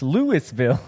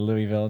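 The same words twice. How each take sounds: First: It is read out literally, syllable by syllable. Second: It is said in the shortened local way. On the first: This is how a navigation app says it. The speaker calls it wrong. "if you're you're uh, doing Google Maps" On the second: This is how locals say it. The speaker calls it right.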